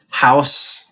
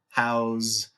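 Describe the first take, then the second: First: The word ends with an s sound. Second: The word ends with a z sound. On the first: It is used as a noun. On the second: It is used as a verb.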